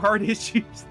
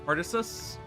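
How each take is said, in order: First: It is said as two words, hard issues. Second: It is said as one name rhyming with Odysseus. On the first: The name is a pun on hard issues. "But hard issues that's actually really clever" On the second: The name seems to reference Odysseus. "I always pronounce it um Artisus because it's like Odysseus"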